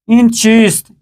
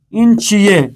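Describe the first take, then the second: First: چیست with a clear final st; full formal ending on چیست; written Persian form. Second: چیئے said chi-ye, st dropped; spoken Persian form. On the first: Teacher reads the written example, full چیست. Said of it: "یعنی یہاں لکھا گیا ہے". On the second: Teacher reads the spoken example, چیئے as chi-ye. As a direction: colloquial open ending on چیئے. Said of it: "یعنی پڑھا گیا ہے". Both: Shown as a demonstration.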